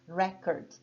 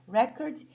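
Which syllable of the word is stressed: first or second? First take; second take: first; first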